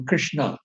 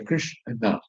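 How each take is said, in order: First: Said in the usual way. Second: Krishna said lower and softer, the syllables Krish and na kept apart. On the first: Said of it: "Like say, for example". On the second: Shown as a demonstration. Teacher showing the class the two syllables of Krishna. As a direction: say Krishna slowly, one syllable at a time. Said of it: "there are two syllables there".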